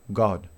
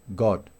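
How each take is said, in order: Both takes have the same delivery.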